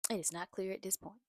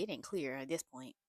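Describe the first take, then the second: First: "It is not clear" said out in full, evenly; plain, careful restatement. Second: Lower, casual "ain't clear" aside; sassy aside. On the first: Correcting herself for viewers, plain careful restatement. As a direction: spell out every word of "It is not clear". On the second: Recapping a show to viewers, low sassy aside. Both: Shown as a demonstration.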